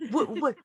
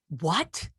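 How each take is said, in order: First: Much higher, stunned double what; jolted by news, voice jumps up; shocked disbelief. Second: Said in the usual way. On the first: Retold or imitated. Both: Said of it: "And I'm like".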